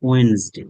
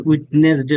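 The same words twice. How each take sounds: First: ওয়েডনেসডে said as wenz-day with the middle d silent; ওয়েডনেসডে as wenzday, two syllables; correct pronunciation. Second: উইডনেসডে said as spelled, wid-nes-day; the wrong way people say উইডনেসডে, every letter sounded; spelling-pronounced উইডনেসডে; common mispronunciation. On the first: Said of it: "আপনারা বলেন উইডনেসডে". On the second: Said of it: "মানুষ বলে". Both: Shown as a demonstration.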